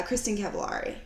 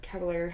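First: Cavallari with an "ah" in the third syllable, like "LAR-ee"; first pronunciation attempt. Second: Cavallari with an "air" sound, ending like "LAIR-ee"; alternative pronunciation. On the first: Podcast host unsure of a celebrity's name, Cavallari said with "ah-ree". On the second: Podcast host correcting herself on a celebrity's name, Cavallari said with "air-ee". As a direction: say Cavallari to rhyme with "fairy". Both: Real, not acted. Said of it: "however the hell you say it".

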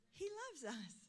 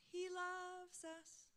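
First: Said in the usual way. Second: Sung hymn line. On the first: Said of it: "honey, you're feeling the love of Jesus". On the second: Retold or imitated. Preacher sings the choir's song to the congregation, slow and sung. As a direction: sing it like the youth choir. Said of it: "they started singing this song".

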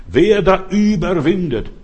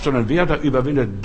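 First: „Wer da überwindet“ slow and loud, with da stressed and falling; solemn Bible quote with da stressed. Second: Wer stressed, the rest at normal pitch and pace; preaching it again with wer stressed. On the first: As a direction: lean hard on da and draw the words out. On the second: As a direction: put the weight on wer, not on da. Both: Shown as a demonstration. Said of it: "nicht wer was glaubt".

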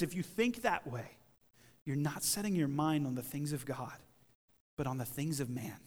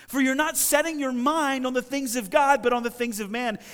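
First: Low, soft and measured; quiet, grave reproof. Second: Higher, louder, forceful reproof; explosive rebuke. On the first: Preacher restating Jesus' words to the congregation, quiet reproof. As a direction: let the correction sink in gently. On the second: Preacher as Jesus rebuking Peter for his mindset, explosive. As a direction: drive the correction home in an acted rebuke. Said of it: "he has this explosive rebuke". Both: Acted.

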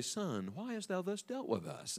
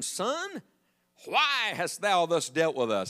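First: Very soft, mild scripture voice; mock-meek mother. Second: Emphatic scripture reading. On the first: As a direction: say it far too gently, as if nothing were wrong. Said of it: "I guarantee she did not say". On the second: A narrator's reading. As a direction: read the mother's verse out deliberately. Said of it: "I wish I could read that like she said it".

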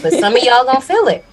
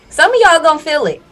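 First: Said in the usual way. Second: Louder, higher, punched repeat; emphatic repeat. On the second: Real, not acted. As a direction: hammer the point home.

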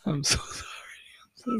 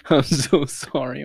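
First: Breathy laughing whisper, pitched up; giggly whispered sorry. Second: Slow, spoken aloud through laughter; laughing sorry. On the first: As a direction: whisper the apology through giggles. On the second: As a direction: apologize out loud while cracking up. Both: Real, not acted. Laughing apology after a fart.

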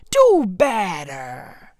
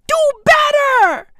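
First: Low, drawn-out reprimand; stern demand. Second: High-pitched, insistent reprimand; outraged demand. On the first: Comedian scolding social media users, stern and slow. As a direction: draw both words out slowly and low. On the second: Comedian repeating his scolding of social media users, high and outraged. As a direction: push it up high in exasperation. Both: Real, not acted.

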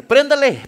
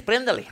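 First: A sharp, louder "Préndale" called out to start the truck; "Préndale" pushed loud and urgent; urgent command. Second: Said in the usual way. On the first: Retold or imitated. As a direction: bark "Préndale" like an order. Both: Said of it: "Y yo le dije".

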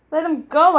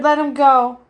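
First: Higher, rising disbelieving question; incredulous echo. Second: Loud, firm plea to release; urgent demand. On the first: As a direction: throw it back as a question. Bear echoes her in disbelief. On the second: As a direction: insist on it, slightly raised pitch. Girl orders pony's release. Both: A narrator's reading.

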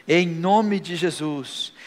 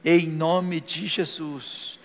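Both takes have the same delivery.

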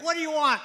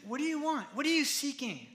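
First: Loud, high-pitched demand; raised-voice confrontational question; wrong harsh reading. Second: Gentler question, raised in pitch but not volume; high-pitched, sincere question without any shouting; sincere asking. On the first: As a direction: throw the question out loudly, as a challenge. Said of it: "that's not how he said it". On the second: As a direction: ask it as an open invitation. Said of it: "He said". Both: Shown as a demonstration.

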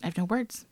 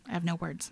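First: Said in the usual way. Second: Much softer, trailing off; softer awed murmur; hushed. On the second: Real, not acted. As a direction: say it again almost to yourself. Speechless after her story.

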